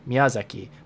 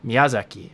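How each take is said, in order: The two takes are said the same way.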